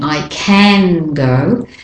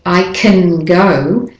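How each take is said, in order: First: The word can has a full, clear vowel. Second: The word can is unstressed with a reduced vowel. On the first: The speaker calls it wrong. "I'm not really saying I can go" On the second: The speaker calls it right. "I'm de-stressing it and putting an there"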